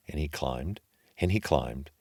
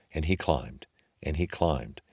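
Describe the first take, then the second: No difference in how they are said.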